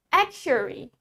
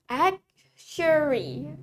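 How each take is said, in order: First: Said in the usual way. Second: Very slow "Actuary", broken after the first syllable; "Actuary" slowly, with a long final vowel; slow model pronunciation. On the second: Shown as a demonstration. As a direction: stretch "Actuary" out for learners. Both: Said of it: "Let's say it with me".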